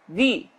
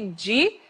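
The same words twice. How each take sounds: First: The d is plain, tongue tip between teeth. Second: The d is pronounced like 'dj' before i. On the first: The speaker calls it right. "Pontinha da língua entre os dentes" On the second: The speaker calls it wrong. "esse som nosso aqui, di, não é assim em espanhol"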